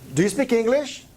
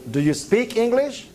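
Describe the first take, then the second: First: The stress falls on the word English. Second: The stress falls on the word speak. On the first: The question is about which language you know. "I'm asking you for this language" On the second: The question is about whether you can talk, not just read. "if I emphasize this word"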